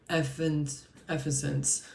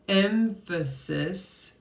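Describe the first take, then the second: First: Emphasis slowed right down, the sounds coming out garbled and slurred; stumbling over emphasis. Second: "emphasis" said very slowly and carefully, every syllable clear, ending on a rise; finally got emphasis right. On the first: Tarot reader tongue-tied on a card word, slow fumbling try. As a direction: fumble "emphasis", tripping over the middle syllables. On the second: Reader finally getting the tricky word out, slow and careful. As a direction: land "emphasis" cleanly at last, EM-pha-sis drawn out. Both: Real, not acted. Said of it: "It finally came out".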